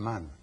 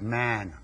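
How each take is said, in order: First: It is said with a Sanskrit-style vowel. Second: It is said with an ordinary English vowel. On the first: The speaker calls it right. "should be pronounced as man" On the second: The speaker calls it wrong. "not man"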